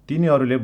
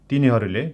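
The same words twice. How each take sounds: No difference in how they are said.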